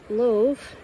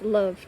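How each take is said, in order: First: A vowel sound is pronounced after the final v. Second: The word ends on the v with no vowel. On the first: The speaker calls it wrong. "It's not love" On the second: The speaker calls it right. "Love has a silent E at the end"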